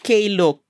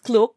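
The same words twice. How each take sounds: First: The K is sounded apart before the word. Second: The K blends straight into the word. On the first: This is how people locally say it. "here in Hong Kong, people pronounce it as K-Look" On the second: This is the speaker's own way of saying it. "I pronounce it as Klook"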